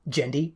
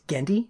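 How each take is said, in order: First: The name begins with a soft G sound. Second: The name begins with a hard G sound. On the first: The speaker calls it wrong. "not Gendy" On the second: The speaker calls it right. "It's a hard G"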